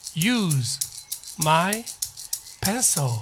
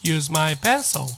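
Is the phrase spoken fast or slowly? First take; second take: slowly; fast. First: The phrase is spoken very slowly. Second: The phrase is spoken fast, at normal speed. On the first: "すごくゆっくりですけども" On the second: "普通にも早く言いますね"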